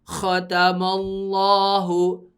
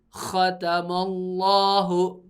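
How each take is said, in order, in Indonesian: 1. Huruf pertama itu kasar dan keras. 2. Huruf pertama itu kasar dan keras.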